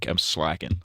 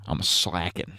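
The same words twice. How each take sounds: First: Said in the usual way. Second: Lightly voiced Trump; a hint of Trump; Trump impression. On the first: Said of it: "I've been getting too casual". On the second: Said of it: "my Trump impression".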